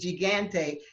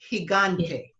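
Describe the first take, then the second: First: The first g is a hard g sound. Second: The first g sounds like an h. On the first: The speaker calls it wrong. "it wouldn't be gigante" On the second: The speaker calls it right. "it would be gigante"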